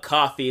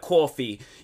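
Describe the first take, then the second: First: It is said in the speaker's plain accent. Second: It is said in an imitated East Coast accent. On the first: "the way that they'll say like uh coffee" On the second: "they'll be like coffee"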